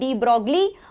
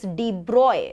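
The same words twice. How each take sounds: First: The name is said the common Indian way. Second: The name is said the standard original way. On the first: The speaker calls it wrong. "as Indians, we like to spoil things a little bit, so we call it de Broglie" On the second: The speaker calls it right. "it's actually not pronounced as de Broglie, it's de Broglie"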